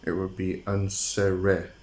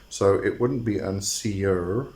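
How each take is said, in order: First: Unsere with the final e sounded, oon-ZEH-reh; right pronunciation. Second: Unseer said with a long final ee; wrong pronunciation. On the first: Host showing viewers the right way, unsere. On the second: Host showing viewers the wrong way, unseer. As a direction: say unseer, ending on a long ee sound. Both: Shown as a demonstration. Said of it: "last E should be pronounced".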